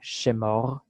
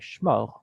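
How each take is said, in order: First: A short vowel separates the first two consonants. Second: The first two consonants are said together. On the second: "we will say shmor and make it a consonant cluster"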